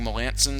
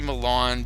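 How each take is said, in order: First: The name is said ending in a 'son' syllable. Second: The name is said without a final 'son' syllable. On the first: This is how the player says his name now. The speaker calls it right. "I should now be saying Melanson" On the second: This is the older way the player said his name. The speaker calls it wrong. "it used to be Milan because it was a Cajun thing"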